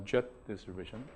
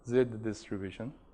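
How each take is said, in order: First: The letter is said as 'jet'. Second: The letter is said the British way, 'zed'. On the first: The speaker calls it wrong. "but not uh, jet distribution" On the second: The speaker calls it right. "if you want to pronounce it like Brits or Aussie"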